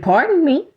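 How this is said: It is said in a smart, sarcastic tone. The speaker is being rude, not truly apologizing.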